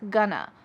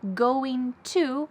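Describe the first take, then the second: First: The words are linked into one reduced form. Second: Both words are said in full. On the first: "which often becomes gonna" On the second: "linking together going to"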